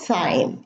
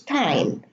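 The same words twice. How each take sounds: First: The h sound is pronounced after the t. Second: The h sound is silent after the t. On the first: The speaker calls it wrong. "It's not time" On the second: The speaker calls it right. "we also have a silent H in these words"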